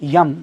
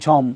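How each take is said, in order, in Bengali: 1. শব্দটি Y উচ্চারণ দিয়ে শুরু হয়। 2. শব্দটি J উচ্চারণ দিয়ে শুরু হয়।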